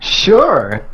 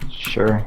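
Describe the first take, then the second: First: The word sounds lively and enthusiastic. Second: The word sounds half-hearted and flat. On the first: The speaker calls it right. "There you go. Enthusiasm" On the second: The speaker calls it wrong. "that was just as half-hearted"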